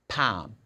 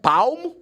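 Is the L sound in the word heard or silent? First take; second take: silent; heard. First: The L sound is silent in the word. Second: The L sound is pronounced in the word. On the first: The speaker calls it right. "The L is not pronounced" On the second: The speaker calls it wrong. "It's not palm"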